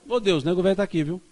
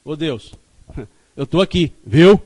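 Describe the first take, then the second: First: "Ô Deus" falling, easy and assured, as a reassurance to God; steady level "viu?" that promises rather than asks; calm confident tune. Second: "viu?" thrown up loud and insistent, begging not to be forgotten; anxious appeal ending on a loud "viu?"; pleading tune. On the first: Old man telling God at bedtime he is there, calm and assured. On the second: Speaker asking God not to forget him, loud pleading "viu?". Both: Shown as a demonstration. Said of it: "Porque eu dou outra entonação".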